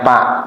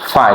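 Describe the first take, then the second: First: The word begins with a p sound. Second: The word begins with an f sound. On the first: The speaker calls it wrong. "Kebiasaan kalau orang Sunda fa itu dibacanya pak" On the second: The speaker calls it right. "tapi harus fa"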